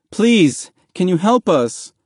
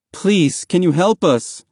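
First: High, urgent, raised-voice plea; begging. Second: High, earnest plea; pleading request. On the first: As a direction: beg a stranger desperately for help. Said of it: "Mahmoud begged". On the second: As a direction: ask a stranger for help, slightly less urgently. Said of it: "Mahmoud asked". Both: A narrator's reading.

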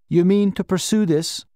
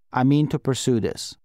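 First: Higher-pitched question, lifted on "pursue this". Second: Level statement, weight on "mean"; firm reply. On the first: Official to the man at his desk, questioning. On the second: Man answering the official's question, firm. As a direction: state it evenly, leaning on "mean". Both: A narrator's reading.

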